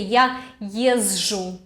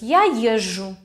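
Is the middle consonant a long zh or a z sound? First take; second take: z sound; long zh. First: The middle consonant starts with a z sound. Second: The middle consonant is a long zh sound. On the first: The speaker calls it wrong. "You do not have to say я езжу" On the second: The speaker calls it right. "Normally we say just я езжу, like double Ж"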